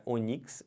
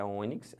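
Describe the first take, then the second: First: "onix" as o-NIX; wrong stress on NIX. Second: "ônix" as Ô-nix; stress on Ô. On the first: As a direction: throw the stress onto the last syllable of "onix". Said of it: "não é onix". ("onix" errado, tônica no NIX) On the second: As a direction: stress the first syllable of "ônix". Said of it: "é ônix". ("ônix" com a tônica no Ô) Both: Shown as a demonstration.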